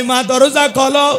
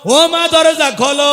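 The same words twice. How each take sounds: First: Raised call of a son at his mother's door. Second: Louder, higher, slow pleading call; drawn out and higher, begging her to answer; desperate call. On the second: Son begging his dead mother to open the door, loud drawn wail. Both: Acted.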